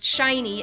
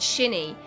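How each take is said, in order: First: The first syllable sounds like 'shy'. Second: The first syllable sounds like 'shin'. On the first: The speaker calls it right. "wants to be pronounced shiny" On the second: The speaker calls it wrong. "not shinny ... like from the Japanese name Shin, and then an like an E sound at the end"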